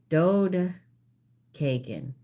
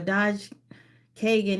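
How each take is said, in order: First: The first syllable ends in a 'd' sound. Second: The first syllable ends in a 'j' sound. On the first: The speaker calls it right. "It's a Dode Kagan" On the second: The speaker calls it wrong. "I said it wrong"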